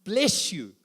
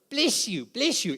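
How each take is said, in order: First: Said in the usual way. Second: Higher, sing-song parody of a pious greeting; mock pious chant of bless you; mocking churchy bless you. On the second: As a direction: lampoon the glib church blessing. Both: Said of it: "Here's a cliche that's overused in the church".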